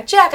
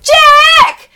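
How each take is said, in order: First: Short, raised but restrained call; half-hearted call. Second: Very high, loud, drawn-out yell; calling out. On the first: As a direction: imitate a kid calling out too timidly. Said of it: "No, call out like you're calling out". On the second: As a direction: call down from the top of the stairs. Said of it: "calling out from the top of the stairs". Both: Retold or imitated.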